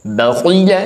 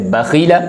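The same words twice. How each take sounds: First: बखीला with a heavy, full-mouthed खी, higher; full heavy kha. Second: बखीला with a light, thin खी; wrong thin kha. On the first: Teacher showing students the correct heavy बखीला. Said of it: "नहीं, खौ पुर पढ़ें". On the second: Teacher showing students the common wrong बखीला. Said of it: "ऐसे पढ़ते हैं". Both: Shown as a demonstration.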